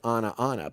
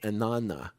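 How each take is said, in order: First: It is said as two separate words. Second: It is run together as one word. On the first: "it looks like ana, ana" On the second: "We pronounce it as one word"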